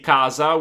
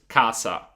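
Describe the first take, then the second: First: The middle consonant is a voiced z sound. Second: The middle consonant is a voiceless s sound. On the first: This is how it is said in some regions, like Milan. "yes, I say casa" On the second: This is how it is said in Puglia. "in Puglia, I used to say just casa"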